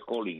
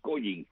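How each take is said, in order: First: It is said with an English pronunciation. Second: It is read with Spanish sounds, as spelled. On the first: This is the original pronunciation of the name. "realmente la pronunciación sería Collins en inglés" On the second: This is how people in Cuba called it. "se le llegó a llamar así Collins, como se escribe"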